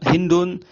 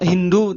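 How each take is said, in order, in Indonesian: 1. Namanya berakhir dengan bunyi n tambahan. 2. Namanya berakhir vokal, tanpa n di akhir. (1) "Ada yang menyebutkan ditanwin"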